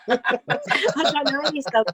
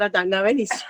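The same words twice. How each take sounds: First: Slow, laughing through the words. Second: Said in the usual way. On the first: Retold or imitated. Singer laughing at her own audition answer. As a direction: giggle it out, amused.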